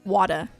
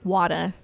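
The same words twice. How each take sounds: First: It is said with a New York-style accent. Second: The same.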